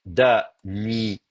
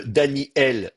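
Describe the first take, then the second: First: "Daniel" very slowly as Da... ni... yel; syllable by syllable. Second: "Daniel" slow, split Dani-El; starting form. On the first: Teacher demonstrates the new form, slow syllabled "Daniel". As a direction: break "Daniel" into pieces, y starting the last. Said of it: "Je vais prononcer un truc comme ça". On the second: Teacher shows the original form, split "Daniel". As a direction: separate i from el in "Daniel". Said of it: "je vais passer à". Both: Shown as a demonstration.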